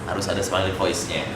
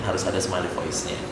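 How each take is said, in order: The two takes are said the same way.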